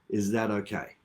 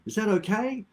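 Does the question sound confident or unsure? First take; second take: confident; unsure. First: It is said in a firm, definitive tone. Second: It is said in a hesitant, low-confidence tone. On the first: The speaker expects agreement and sounds in control. The speaker calls it right. "It's a definitive tone" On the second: The speaker seems to lack confidence. The speaker calls it wrong. "it puts you a little bit on the, um, how can we say, low confidence"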